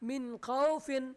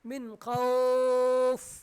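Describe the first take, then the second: First: The word runs on with a short vowel. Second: The word stops with its vowel drawn out. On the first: The reciter continues without stopping. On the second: The reciter stops on this word.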